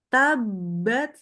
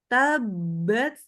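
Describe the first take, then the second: Both takes have the same delivery.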